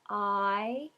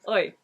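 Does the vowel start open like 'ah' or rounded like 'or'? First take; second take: ah; or. First: The vowel starts with an open 'ah' sound. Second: The vowel starts with a rounded 'or' sound. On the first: "in standard British English we have I" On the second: "in West Country we have"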